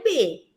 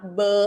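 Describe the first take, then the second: First: It is said as a full syllable letter name. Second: It is said as a short bare consonant sound. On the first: This is what the letter is called. "ela é chamada de letrinha B" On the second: This is the sound the letter makes. "a letrinha B tem o fonema B"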